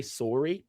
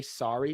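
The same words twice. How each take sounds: First: "sorry" with a rounded "oh", as soar-ee; Canadian pronunciation. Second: "sorry" with an open "ah", as sah-ree; usual American pronunciation. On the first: Host asks if guest says it the Canadian way, "sorry" as soar-ee. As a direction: say "sorry" to rhyme with story. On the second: Host quizzes guest on her accent, American "sorry" as sah-ree. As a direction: say "sorry" to rhyme with starry. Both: Shown as a demonstration. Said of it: "Canadian accent, right? When you say".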